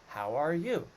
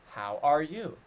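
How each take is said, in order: Both takes have the same delivery.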